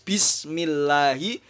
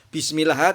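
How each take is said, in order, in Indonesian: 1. Kata ini berakhir dengan vokal i. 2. Kata ini berakhir tanpa vokal. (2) "tidak boleh"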